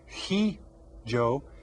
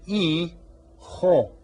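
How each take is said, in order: First: The word begins with an audible h sound. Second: The word begins with no h sound. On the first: The speaker calls it wrong. "We don't say" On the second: The speaker calls it right. "The H is silent"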